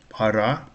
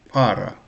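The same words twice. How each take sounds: First: The stress is on the second syllable. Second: The stress is on the first syllable. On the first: It means a time period. "Stress is on the second syllable" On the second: It means a pair or couple. "para is pair, pair couple"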